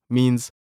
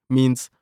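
No difference in how they are said.

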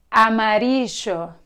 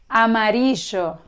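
First: It is said with an Argentine Spanish accent. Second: It is said with an Argentine Spanish accent.

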